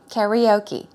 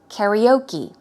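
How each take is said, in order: First: It is said with a Western English pronunciation. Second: The same.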